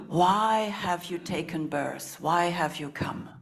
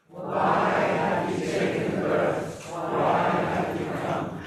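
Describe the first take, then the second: First: Slow, voiced asking; slow spoken question. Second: Slow breathy whisper of the question. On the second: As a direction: whisper it slowly to the circle. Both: Shown as a demonstration. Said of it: "So we'll repeat that again".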